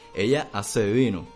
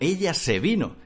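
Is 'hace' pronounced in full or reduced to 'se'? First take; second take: full; reduced. First: The phrase is said carefully, with 'hace' in full. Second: The phrase is said fast, with 'hace' reduced.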